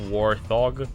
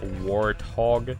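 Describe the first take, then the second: First: The word is split as war plus thog. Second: The word is split as wart plus hog. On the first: The speaker calls it wrong. "not warthog" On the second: The speaker calls it right. "it's warthog"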